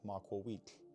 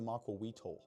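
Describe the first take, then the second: First: The ending is a short, quiet noise. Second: The ending is said as a full spoken syllable. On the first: The speaker calls it right. "you pronounce it maquawit" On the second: The speaker calls it wrong. "it's not pronounced the maquawitl. That's stupid"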